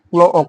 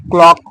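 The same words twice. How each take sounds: First: ক্ল-, ও split into two separate sounds; sounding out. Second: Said in the usual way. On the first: Shown as a demonstration. Teacher showing the short vowel sound, sounding out. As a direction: break it as ক্ল-, then a separate ও. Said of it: "short sound". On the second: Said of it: "একটা উচ্চারণ হচ্ছে".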